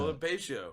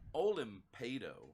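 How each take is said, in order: First: The name ends in a 't' and 'io' sound. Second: The name ends in a plain 'ado' sound. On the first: The speaker calls it wrong. "I pronounced your name as Olimpatio" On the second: The speaker calls it right. "I'm overpronouncing your name tonight"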